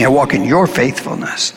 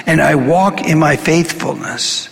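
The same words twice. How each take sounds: First: "your" leaned on as the correction; stress on your. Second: Said in the usual way. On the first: Shown as a demonstration. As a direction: fix the misread by hitting "your". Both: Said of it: "I walk, excuse me".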